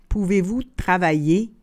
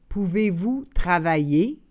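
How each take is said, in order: The two takes are said the same way.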